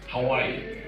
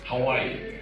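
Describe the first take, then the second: First: The words are linked together like one word. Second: The words are linked together like one word.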